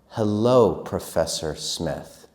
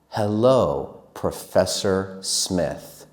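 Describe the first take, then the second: First: It is said a bit faster. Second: It is said very slowly. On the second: "This is slow"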